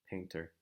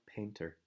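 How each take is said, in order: No difference in how they are said.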